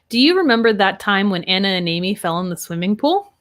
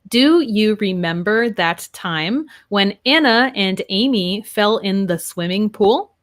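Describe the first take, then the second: First: The words run together with linked sounds. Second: The words are said separately, without linking. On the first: The speaker calls it right. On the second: The speaker calls it wrong.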